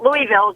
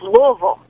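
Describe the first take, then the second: First: Every syllable of the name is clearly pronounced. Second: The name is swallowed and shortened, half reduced. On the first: The speaker calls it wrong. "It's not Louisville" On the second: The speaker calls it right. "You swallow half of it"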